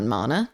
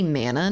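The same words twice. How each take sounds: First: Mana with a broad ah, like MAH-nuh; mana with the ah of father; mana her own way. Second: Mana with a nasal flat a, like man; mana rhymed with banana said American, MAN-uh; mana the chat's way. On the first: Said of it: "not mana?". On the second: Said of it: "You say mana, not mana?". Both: Retold or imitated.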